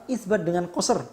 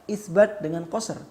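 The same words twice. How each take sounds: Both takes have the same delivery.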